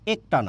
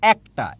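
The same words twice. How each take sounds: First: The first vowel is a closed e. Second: The first vowel is an open e. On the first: The speaker calls it wrong. "এটার উচ্চারণ কিন্তু একটা না" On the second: The speaker calls it right. "এটার উচ্চারণ কিন্তু একটা"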